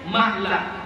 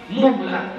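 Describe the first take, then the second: First: The first vowel is an 'a' sound. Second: The first vowel is an 'u' sound. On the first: "dan memfathahkannya" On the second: "dengan mendhammahkan mim"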